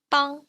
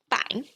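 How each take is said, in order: First: Bang with a back ung vowel, said as bung; bang the Mandarin way. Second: Said in the usual way. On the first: Shown as a demonstration. Teacher models bang for learners, with a back ung vowel. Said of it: "we have". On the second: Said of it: "So instead of bang".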